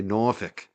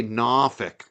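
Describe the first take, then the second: First: NORFOLK as "NOR-fick", rounded first vowel. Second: NORFOLK stretched to "NAAH-fick", South Shore style; slow South Shore "Norfolk" without the R; South Shore accent Norfolk. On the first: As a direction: say "Norfolk" with an "or" sound, not "nah". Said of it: "They say Norfolk". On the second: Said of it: "Don't say Norfolk". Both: Shown as a demonstration.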